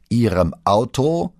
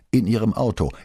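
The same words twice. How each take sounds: First: Slow, loud, rising disbelief; drawn-out, high incredulous question; incredulous echo. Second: Said in the usual way. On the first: A narrator's reading. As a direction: throw the answer back as an astonished question. Boss echoes answer in disbelief.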